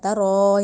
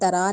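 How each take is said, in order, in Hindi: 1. r अक्षर गोल होंठों के साथ भारी है। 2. r अक्षर खुले 'a' के साथ हल्का है। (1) "यानी मुंह को गोल करके पढ़ना है, तरो मोटा करके" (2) "तरा नहीं कहना"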